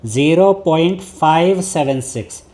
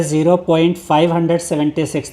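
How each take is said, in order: First: "zero point five seven six" with each digit after the point said on its own: five, seven, six; correct reading. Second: "zero point five hundred seventy six" read with the decimal digits as one whole number, five hundred seventy-six; wrong reading. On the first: Teacher showing students the right way to read "zero point five seven six". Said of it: "इसको आप ऐसे read करेंगे". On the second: Teacher showing students the wrong way to read "zero point five hundred seventy six". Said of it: "तो वो गलत हो जाएगा". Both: Shown as a demonstration.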